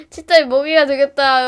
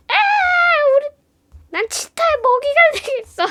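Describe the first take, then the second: First: Louder mock wail at usual pitch; boy playfully wailing to friends. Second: High put-on panic voice; hammed-up terrified boy; mock dramatic boy. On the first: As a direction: shout it in play despair. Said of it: "하면서". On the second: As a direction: squeal it like you're about to be eaten. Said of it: "하면서 막".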